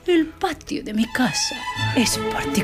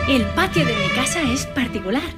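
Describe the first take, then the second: First: It is said primly, with pursed posh lips. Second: It is said in a plain voice.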